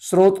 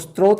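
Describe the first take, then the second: First: It begins with 'sr' with no 't' sound. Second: It begins with 'str' with a 't' sound. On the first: The speaker calls it right. "स्रोत को स्त्रोत नहीं बोलेंगे" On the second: The speaker calls it wrong. "स्रोत को स्त्रोत नहीं बोलेंगे"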